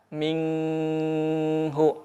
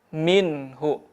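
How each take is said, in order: First: The n is held with a nasal hum. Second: The n is said clearly without hum or break. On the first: The speaker calls it wrong. "tidak menahan ... ikhfa, atau gunnah" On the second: The speaker calls it right. "dibaca jelas"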